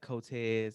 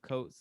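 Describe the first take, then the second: First: The name is said with a Spanish-like sound. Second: The name is said with a plain English sound. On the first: Other people mispronounce the name this way. The speaker calls it wrong. "they be like Cotes. I'm like, no, I don't speak Spanish" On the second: This is the owner's own way of saying it. The speaker calls it right. "my last name is Coates"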